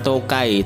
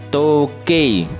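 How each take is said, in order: First: The final vowel glides like 'ai'. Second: The final vowel is a clear pure 'e'. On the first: The speaker calls it wrong. "bukan tokai" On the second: The speaker calls it right. "E-nya harus jelas"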